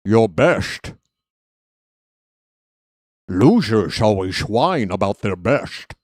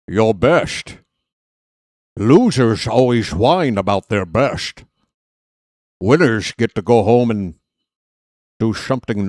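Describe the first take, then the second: First: Slushy Connery s sounds, Scottish burr; Sean Connery impression. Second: Scottish-tinged brogue with slurred s sounds; lightly done Scottish Connery burr; Sean Connery impression. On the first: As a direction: lean into the Connery slur. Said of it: "Sean Connery impre". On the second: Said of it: "I'm turning into Sean Connery".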